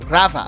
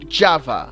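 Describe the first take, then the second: First: The word begins with a throaty H-like sound. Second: The word begins with a J sound.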